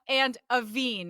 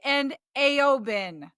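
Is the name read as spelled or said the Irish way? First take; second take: Irish way; as spelled. First: The name is said in its Irish form. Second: The name is read sound by sound as spelled. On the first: The speaker calls it right. "They're really pronounced" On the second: The speaker calls it wrong. "I would have said"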